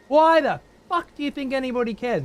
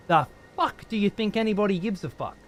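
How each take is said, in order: First: Exasperated yell. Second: Said in the usual way. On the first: Real, not acted. Streamer yelling at a chatter who spoils the game, exasperated. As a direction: blow up at him in frustration. Streamer ranting at chat viewer.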